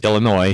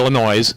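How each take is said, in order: First: The final S is silent. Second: The final S is pronounced. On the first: The speaker calls it right. "you don't pronounce the S on Illinois. It's Illinois" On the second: The speaker calls it wrong. "not Illinois"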